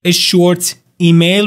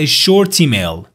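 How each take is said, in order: First: "A short email" slowly with separate words; unlinked words. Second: "a short email" run together as "a shortemail"; linked words. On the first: Teacher quoting the phrase before linking it, unlinked words. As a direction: end "short" fully before beginning "email". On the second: Teacher showing how the recording said it, linked words. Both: Shown as a demonstration. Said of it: "اینا رو به هم دیگه وصل کرد".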